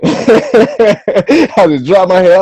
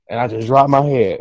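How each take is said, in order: First: Laughing, slow. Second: Said in the usual way. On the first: Retold or imitated. Laughing retelling of defeat.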